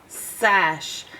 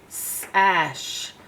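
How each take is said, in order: The two takes are said the same way.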